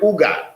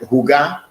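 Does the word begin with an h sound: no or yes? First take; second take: no; yes. First: The word starts with no h sound. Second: The word starts with a pronounced h sound. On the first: The speaker calls it wrong. "the age become silent" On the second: The speaker calls it right. "the H is never silent. It is pronounced"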